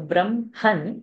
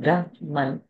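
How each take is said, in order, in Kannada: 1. m ಶಬ್ದ h ಗಿಂತ ಮೊದಲು ಹೇಳಲಾಗುತ್ತದೆ. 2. m ಶಬ್ದ h ಗಿಂತ ನಂತರ ಹೇಳಲಾಗುತ್ತದೆ. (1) "ma should come first and then it should end with her" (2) "not Brahman"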